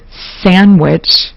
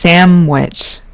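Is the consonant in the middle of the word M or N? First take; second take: N; M. First: The middle consonant is an N sound. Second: The middle consonant is an M sound.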